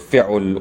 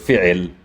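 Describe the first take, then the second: First: A u vowel follows the ain sound. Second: An i vowel follows the ain sound. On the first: "or fi'ul" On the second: "or fi'il"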